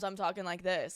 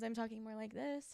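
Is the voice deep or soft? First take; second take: deep; soft. First: The voice is low and deep from the chest. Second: The voice is light and soft. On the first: "using that like bottom half of my diaphragm and it's like more deep" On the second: "it's more like soft"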